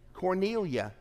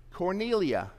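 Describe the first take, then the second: First: The word ends with an open 'ah' sound. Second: The word ends with an open 'ah' sound.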